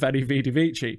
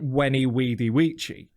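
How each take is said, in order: First: Each word begins with a V sound. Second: Each word begins with a soft W sound. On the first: This is how it is usually said today. "rather than" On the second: This is how the Romans said it. "It was all W sounds. It was a soft sound"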